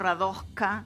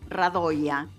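First: The middle consonant is not a Y sound. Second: The middle consonant is a Y sound. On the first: This is the local adapted pronunciation. "acá ya se instaló Radoška" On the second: This is the original Serbian pronunciation. "en Serbia la J se pronuncia I"

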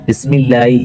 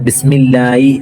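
No difference in how they are said.

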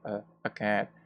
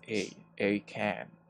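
First: The word 'a' is a short, weak 'uh' sound. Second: The word 'a' is a long, full 'ay' sound. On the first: "You can use the schwa" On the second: "or pronounce this as a cat"

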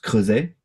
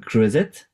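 First: The final T is left silent. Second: The final T is pronounced. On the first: The speaker calls it right. "it's pronounced creuset. It's not because there is a T at the end of the word that you have to say it" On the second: The speaker calls it wrong. "You called it a creuset"

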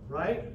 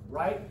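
Both takes have the same delivery.

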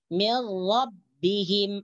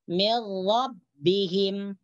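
The two takes are said the same way.

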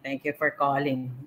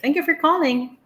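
First: The voice sounds cold and unfriendly. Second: The voice sounds warm and welcoming. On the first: The caller is not welcome. The speaker calls it wrong. "instead of saying" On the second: The caller is welcome and will be helped. The speaker calls it right. "yung voice mo is very welcoming"

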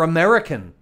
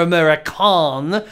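First: It is said with a plain English accent. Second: It is said with a snooty French accent.

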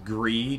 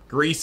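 First: The word ends without an S sound. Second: The word ends with an S sound. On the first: The speaker calls it wrong. "just a silent S" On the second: The speaker calls it right. "Greece is correct"

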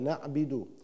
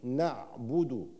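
First: The b sound carries an 'i' vowel. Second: The b sound carries a rounded 'u' vowel. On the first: The speaker calls it wrong. "يقرأ الباء مكسورة نعبد، خطأ" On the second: The speaker calls it right. "أضم الشفتين أثناء نطق الباء فأقول نعبد"

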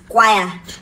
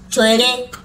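First: The word begins with a 'k' sound. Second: The word begins with a 'ch' sound. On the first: The speaker calls it right. "the CH is pronounced as k" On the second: The speaker calls it wrong. "There's CH there"

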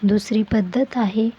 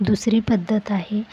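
No difference in how they are said.

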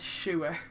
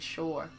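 First: The word sounds like 'sewer'. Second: The word does not sound like 'sewer'. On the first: The speaker calls it wrong. "that just sounds like you're saying sewer" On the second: The speaker calls it right. "That's how you say the word"

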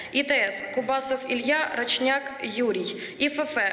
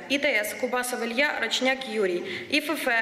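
The two takes are said the same way.

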